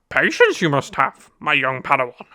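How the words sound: It is said in a Yoda impression.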